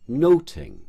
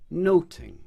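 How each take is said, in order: First: The middle consonant is a t sound. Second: The same.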